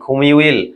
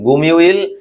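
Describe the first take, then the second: First: The word begins with a breathy kh sound. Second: The word begins with a soft g sound. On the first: This is how the word is actually spoken. "বলার উচ্চারণটি সিম্পলি হবে কি? খুমিউইল" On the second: This is how the word is written. "এটি গুমিউইল"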